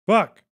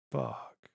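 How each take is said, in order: First: Sudden higher, louder outburst; sharp shouted fuck; loud curse. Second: Muttered under the breath, much softer; quiet grumbled swear; soft curse. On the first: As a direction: blurt it out in real frustration. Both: Real, not acted. Muttered then shouted swear.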